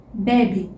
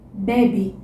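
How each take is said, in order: The two takes are said the same way.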